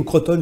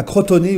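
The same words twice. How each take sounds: First: "Crotone" with a silent final e, kro-tonn; prononciation française. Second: "Crotone" with the final e sounded, kro-to-né; prononciation à l'italienne. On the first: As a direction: say "Crotone" in two syllables, ending on the n. (« Crotone » prononcé avec le e muet) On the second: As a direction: say "Crotone" in three syllables, ending in -né. (« Crotone » prononcé avec le é final) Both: Shown as a demonstration. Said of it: "je sais pas comment on dit en italien".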